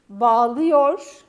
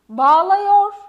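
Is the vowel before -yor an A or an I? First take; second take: I; A. First: The vowel before -yor is a narrow I. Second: The vowel before -yor is a wide A. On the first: The speaker calls it right. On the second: The speaker calls it wrong.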